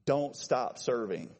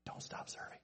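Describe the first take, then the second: First: Slow, voiced "Don't stop serving", falling; firm repetition. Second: Barely audible whisper; whispered caution. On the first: Repeats the whispered line aloud. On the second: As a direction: whisper it as a careful warning. Hushed caution, then repeated firmly. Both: Shown as a demonstration.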